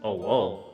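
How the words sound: There is barely a pause between the words.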